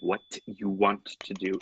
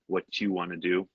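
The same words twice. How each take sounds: First: 'What you' is said as separate words. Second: 'What you' is joined with a ch sound. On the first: "instead of" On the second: "using the ch sound"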